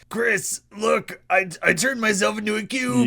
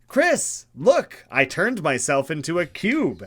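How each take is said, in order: First: It is read in a Rick impression voice. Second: It is read in the speaker's normal voice.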